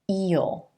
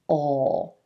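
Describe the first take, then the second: First: It is a long ee vowel into a dark L. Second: It is a short vowel into a dark L. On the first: "E as in green vowel sound rolling into that dark L" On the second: "the dark L sound"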